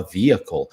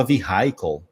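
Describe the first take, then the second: First: Vehicle said VI-a-kol with a silent h; right vehicle. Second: Vehicle said vi-HAI-kol with the h sounded; wrong vehicle. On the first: Teacher gives the correct vehicle. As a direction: drop the h in vehicle. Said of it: "Eu falava vehicle". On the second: Teacher recalls his own wrong vehicle. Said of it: "não falava vehicle". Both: Shown as a demonstration.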